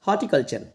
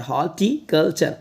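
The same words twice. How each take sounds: First: Said in the usual way. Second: horticulture slowly split "hor - ti - kal - char"; syllable by syllable. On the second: Shown as a demonstration. Teacher practising a word with students, horticulture in slow parts. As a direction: sound horticulture out part by part. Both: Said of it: "इस word की practice करते हैं".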